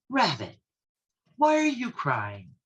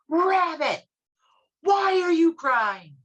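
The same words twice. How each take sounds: First: It is said at a normal, soft volume. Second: It is yelled as loudly as possible.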